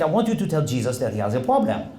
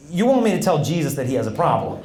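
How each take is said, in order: First: Imitated French priest; French accent. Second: Said in the usual way. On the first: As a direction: repeat it in French-accented English. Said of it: "there's a priest visiting from France". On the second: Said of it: "I go".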